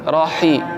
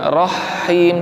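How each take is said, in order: First: The h sound is short, single. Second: The h sound is held long, doubled. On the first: The speaker calls it right. "tapi rahi" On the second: The speaker calls it wrong. "haknya jangan seolah-olah ada tasydidnya"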